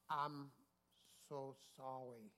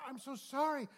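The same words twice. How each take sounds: First: Slow, halting, softened apology; put-on slow, impeded speech; feigned speech impairment. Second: High, loud burst of remorse; imitated gushing apology; mock frantic apology. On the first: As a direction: act as if speaking is a struggle. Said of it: "acted like ... something wrong with him". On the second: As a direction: act out being mortified and sorry. Acting out the woman's frantic apology.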